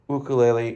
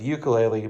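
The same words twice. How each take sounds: First: It is pronounced the way Hawaiians say it. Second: It is pronounced the way Midwesterners say it. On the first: It respects how people from Hawaii prefer the word. The speaker calls it right. "I've been working really hard to try to say ukulele" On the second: It is the habitual local way of saying the word. The speaker calls it wrong. "instead of ukulele"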